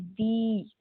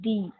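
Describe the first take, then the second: First: The vowel is drawn out longer. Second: The vowel is said short.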